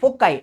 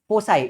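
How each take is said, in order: First: The middle consonant is a hard k sound. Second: The middle consonant is a soft s sound. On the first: The speaker calls it wrong. "ऐसे नहीं बोलना है" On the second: The speaker calls it right. "इसका correct pronunciation क्या है? फोसाई।"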